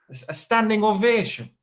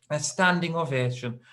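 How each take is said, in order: First: Can't believe it, standing ovation; incredulous. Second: Said in the usual way. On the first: Retold or imitated. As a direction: groom stunned as his wife gets a standing ovation.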